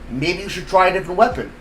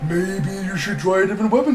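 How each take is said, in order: First: It is said in the speaker's normal voice. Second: It is said in a put-on character voice.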